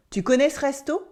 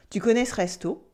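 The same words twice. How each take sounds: First: "resto" lifted at the end as a question; rising question intonation. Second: Said in the usual way. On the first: Shown as a demonstration. Teacher shows learners a spoken question, rising intonation. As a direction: let the voice climb on "resto". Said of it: "my voice goes up". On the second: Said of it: "It's like the affirmative sentence".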